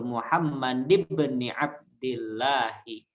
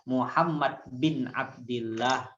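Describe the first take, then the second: First: The b carries no vowel after it. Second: The b is followed by an i vowel. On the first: The speaker calls it right. "Yang betul" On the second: The speaker calls it wrong. "Khata' kalau Anda baca Muhammad bin Abdillah, salah"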